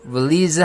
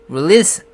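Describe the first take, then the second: First: The final sound is a buzzing z. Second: The final sound is a hissing s. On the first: The speaker calls it wrong. "release 하면서 실수를 하게 되는 거죠" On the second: The speaker calls it right. "끝에 에스이가 즈로 나는 게 아니라 스로 나야 됩니다"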